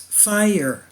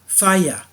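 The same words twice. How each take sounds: First: The word is said with an American accent. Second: The word is said with a British accent. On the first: "Americans are already used to pronouncing fire as fire" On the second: "rather than fire, as most Brits do"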